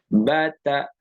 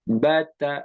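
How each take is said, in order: No difference in how they are said.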